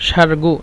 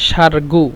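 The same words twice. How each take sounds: The two takes are said the same way.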